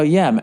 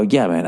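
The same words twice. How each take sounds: First: Said in the usual way. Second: A lower, forced-calm "Yeah, man."; "Yeah, man." held down to keep the peace; "Yeah, man." kept low and level, restraining irritation. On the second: Retold or imitated. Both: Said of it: "I try to stay calm".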